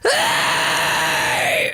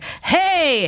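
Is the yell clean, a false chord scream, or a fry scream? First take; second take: false chord; clean. First: A gritty yell with false chord distortion. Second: A clean yell with no distortion. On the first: The speaker calls it right. "false chord scream" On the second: The speaker calls it wrong. "that's really clean, there's not enough distortion"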